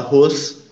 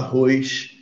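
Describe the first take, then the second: First: It is said in a São Paulo accent. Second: It is said in a Rio de Janeiro accent. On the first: "eu não vou falar arroz de jeito nenhum na minha vida" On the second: "você tem muito sotaque, você fala arroz"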